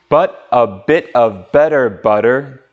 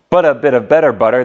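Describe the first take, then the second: First: It is said at a slower pace. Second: It is said as fast as possible.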